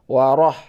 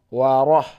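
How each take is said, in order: No difference in how they are said.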